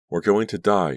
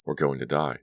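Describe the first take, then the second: First: High, loud panicked cry; terrified scream. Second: Said in the usual way. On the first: A narrator's reading. Danielle screams in the falling van, terrified and loud. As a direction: scream it in terror. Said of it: "she screamed aloud". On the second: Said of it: "Danielle thought".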